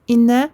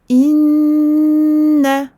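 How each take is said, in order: First: The n sound is short and not held. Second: The n sound is held for a long time. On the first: The speaker calls it wrong. "non, c'est incorrect" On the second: The speaker calls it right. "On le tient longtemps"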